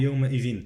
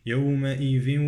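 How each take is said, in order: First: Quick "يومئذ" with short, unfused ending; wrong unmerged ending. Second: Recited "يومئذ" gliding into a held nasal w; merged nasal ending. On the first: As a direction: clip the nasal glide off "يومئذ". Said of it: "لا أقول". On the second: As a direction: hum the end of "يومئذ" towards w. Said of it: "لا أقول يومئذ". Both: Shown as a demonstration.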